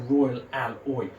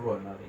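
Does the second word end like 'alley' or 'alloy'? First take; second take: alloy; alley. First: The second word ends like 'alloy'. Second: The second word ends like 'alley'. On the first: The speaker calls it right. "it's a Royal Alloy" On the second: The speaker calls it wrong. "it isn't a Royal Ali"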